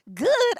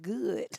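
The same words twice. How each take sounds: First: Good. thrown back high and loud in disbelief; incredulous echo. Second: Said in the usual way. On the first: Retold or imitated. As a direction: repeat Good. as if it's absurd. Echoing dad in disbelief.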